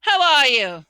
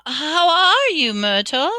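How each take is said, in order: First: Loud, hearty hail; roaring. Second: High, loud, stretched fake cheer; falsely bright. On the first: Headless huntsman greeting his rival, roaring. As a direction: boom out a falling greeting. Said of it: "he roared". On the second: Hermione covering up to a ghost, falsely bright. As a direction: greet her with forced brightness. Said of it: "in a falsely bright voice". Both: A narrator's reading.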